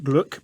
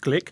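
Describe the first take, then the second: First: The vowel sounds like the u in luck. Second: The vowel sounds like the i in lick. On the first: This is how the spelling suggests it sounds. The speaker calls it wrong. "It looks like Gluck" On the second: This is how the name is actually said. The speaker calls it right. "but actually it's Glick"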